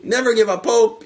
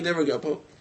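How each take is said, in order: First: Hope pushed up high and loud; a rousing call, never give up hope; fervent plea. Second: Never give up hope dropped softer and settled; a gentle echo of the lesson; soft repeat. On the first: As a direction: urge never give up hope with rising force. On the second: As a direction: say never give up hope again quietly, as a closing thought. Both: Shown as a demonstration. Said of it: "You have to".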